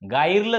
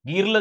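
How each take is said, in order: First: The vowel sounds like eye in fire. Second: The vowel sounds like ee in see. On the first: "गायरलं झालं का? नाही" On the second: "गिरलं झालं का? नाही"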